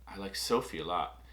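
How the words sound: The stress falls on the word Sophie. The affection is for Sophie rather than someone else. "you know that I'm talking about Sophie"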